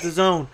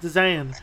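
First: The name ends with a long 'zone' sound. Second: The name ends with a short 'zan' sound. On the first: "I pronounce it as The Zone" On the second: "My wife pronounces it as The Zan"

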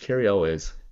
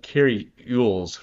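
First: The surname begins with an 'el' sound. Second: The surname begins with an 'ew' sound. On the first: The speaker calls it right. "It's Cary Elwes" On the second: The speaker calls it wrong. "I was getting rid of syllables when I was first. I was saying like Cary Ewels"

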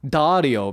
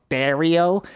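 First: The name is said with a standard American accent. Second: The name is said with a Buffalo accent.

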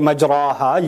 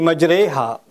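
First: The vowel after the r is an open a. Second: The vowel after the r leans toward e. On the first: The speaker calls it wrong. "You don't say majraha" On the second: The speaker calls it right. "you say majreha"

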